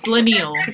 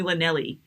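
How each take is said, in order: First: The name ends on an 'l' sound. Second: The name ends with an extra 'ee' syllable. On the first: The speaker calls it right. "It's Lanil" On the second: The speaker calls it wrong. "don't call me Lanelli"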